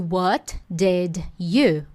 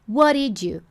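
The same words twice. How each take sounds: First: Each word is pronounced fully and separately. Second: The words are blended into one connected chunk. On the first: "Ao invés de" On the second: "é possível a pronúncia ficar"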